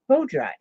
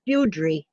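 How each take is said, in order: First: The first syllable sounds like 'bow'. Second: The first syllable sounds like 'boo'. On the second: "So that's like beaut- beautiful"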